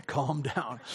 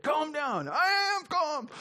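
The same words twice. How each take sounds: First: Said in the usual way. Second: Squeaky high, strained insisting; mock frantic "I am calm" voice, pitched up high; high mock agitated voice. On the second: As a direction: pretend you're tense while claiming calm. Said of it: "remember that".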